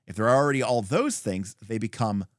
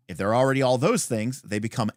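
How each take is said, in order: Both takes have the same delivery.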